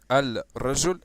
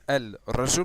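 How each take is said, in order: No difference in how they are said.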